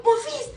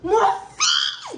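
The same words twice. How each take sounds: First: High, firm call of the name; high firm call, not a scream; calling her son. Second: High shouted call, laughing; sudden high laughing shout; shouting her son. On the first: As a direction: snap his name out sharply. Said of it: "juste dit son prénom en mode". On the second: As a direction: yell her son's name across the playground. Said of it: "j'ai crié". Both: Retold or imitated.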